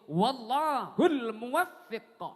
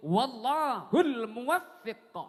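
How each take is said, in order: First: The w vowel is short, the f doubled. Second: The w vowel is short, the f doubled.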